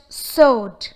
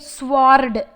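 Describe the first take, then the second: First: No W sound is pronounced. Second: A W sound is pronounced. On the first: The speaker calls it right. "it's just sword" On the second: The speaker calls it wrong. "We do not say it sword"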